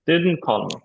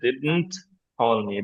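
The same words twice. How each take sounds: First: The t in didn't is barely released. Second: The t in didn't is fully pronounced. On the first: The speaker calls it right. "টা হালকা মানে land হয়ে release হবে" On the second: The speaker calls it wrong. "এরকম নেটিভরা সাধারণত বলে না"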